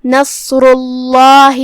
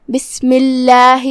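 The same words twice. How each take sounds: First: نصر اللہ with a thick, heavy ل in اللہ; drawn-out نصر اللہ with a full, emphatic ل; heavy lam. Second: بسم اللہ with a thin, light ل in اللہ; slow بسم اللہ with a clear, unthickened ل; light lam. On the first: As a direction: recite نصر اللہ slowly, darkening the ل. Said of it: "ہم اسے بھاری آواز میں ادا کریں گے". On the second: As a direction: recite بسم اللہ slowly, keeping the ل light. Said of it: "ہلکی آواز میں ادا کریں گے". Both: Shown as a demonstration.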